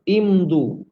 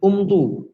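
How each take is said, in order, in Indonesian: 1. Kata ini dimulai dengan vokal i. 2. Kata ini dimulai dengan vokal u. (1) "kita kena mulakan dengan baris bawah" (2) "tidak dibaca dengan umdu"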